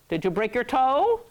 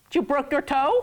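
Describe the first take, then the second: First: "Did you break your toe" rising on "toe" like "Boker Tov"; the pun said as a question to sound like "Boker Tov"; teasing sound-alike for "Boker Tov"; joking misreading. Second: "Did you broke your toe" sounding like "Boker Tov"; playful mock mishearing of "Boker Tov"; joking misreading. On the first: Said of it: "So if you say, "Break your toe". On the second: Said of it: "Don't say it like that". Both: Shown as a demonstration.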